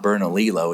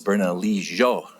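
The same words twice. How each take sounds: First: The double L is said as an L sound. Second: The double L is said as a Y sound. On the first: The speaker calls it wrong. "it's not Bernalillo" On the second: The speaker calls it right. "it's Bernalillo. The double L is a jo"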